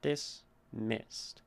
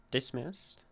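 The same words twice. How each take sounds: First: "Dismissed" drawn out, MISSED stressed; slow stressed MISSED. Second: "Dismissed" with MISSED stressed. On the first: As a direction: lean into the second syllable. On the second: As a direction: say it as an iamb. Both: Shown as a demonstration. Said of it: "Da-dun".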